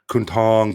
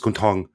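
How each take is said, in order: First: The name is said carefully with full vowel length. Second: The name is said fast with shortened vowels.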